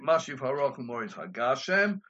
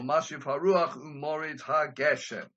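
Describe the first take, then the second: First: The first vowel of the last word is 'ah'. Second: The first vowel of the last word is 'eh'. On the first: It is the pausal form. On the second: It is the non-pausal form.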